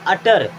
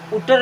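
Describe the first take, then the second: First: It starts with an 'uh' vowel and ends 'tar'. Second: It starts with an 'oo' vowel and ends 'tar'. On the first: The speaker calls it right. "अटर क्या है, अटर means कहना" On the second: The speaker calls it wrong. "उटर नहीं होगा"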